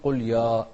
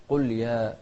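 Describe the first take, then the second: First: يا with a dark, thick long vowel; wrong heavy ya. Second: يا with a thin, open long vowel; light ya. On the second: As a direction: keep يا light after قل. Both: Shown as a demonstration. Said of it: "ما نقول قل يا".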